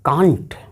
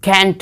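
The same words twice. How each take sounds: First: It is said with a British accent. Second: It is said with an American accent.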